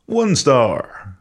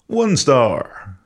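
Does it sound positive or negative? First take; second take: positive; positive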